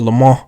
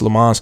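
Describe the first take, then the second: First: The name is said with a French accent. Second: The name is said with an American accent. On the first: "if you're saying it with the accent" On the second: "for the American people, it's Le Mans"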